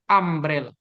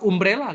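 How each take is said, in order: First: The word starts with an 'a' vowel sound. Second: The word starts without an 'a' vowel sound. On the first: The speaker calls it right. "tapi umbrella" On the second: The speaker calls it wrong. "bukan umbrella kita bacanya"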